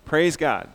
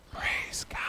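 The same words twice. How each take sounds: First: Said in the usual way. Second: Voiceless stage whisper; loud whisper. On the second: Shown as a demonstration. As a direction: whisper it loudly. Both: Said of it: "loudly whisper".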